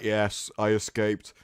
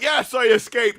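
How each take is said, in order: First: It is said flatly, with little energy. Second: It is said with lively, enthusiastic energy. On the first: The speaker calls it wrong. "She's like" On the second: The speaker calls it right. "I'd be more enthusiastic"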